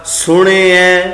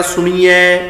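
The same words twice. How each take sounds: First: ਸੁਣਿਐ with a light short i; short sihari vowel. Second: ਸੁਣੀਐ as su-nee-ai; long ee mistake. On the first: Teacher models the right reading, ਸੁਣਿਐ with sihari. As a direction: keep the i in ਸੁਣਿਐ brief before ai. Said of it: "ਸਿਹਾਰੀ ਦੇ ਨਾਲ ਉਚਾਰਨ ਹੋਏਗਾ". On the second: Teacher shows our wrong reading, ਸੁਣੀਐ with long ee. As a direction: turn the middle of ਸੁਣੀਐ into a long ee. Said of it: "ਸਹੀ ਉਚਾਰਨ ਨਹੀਂ ਹੋ ਰਿਹਾ". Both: Shown as a demonstration.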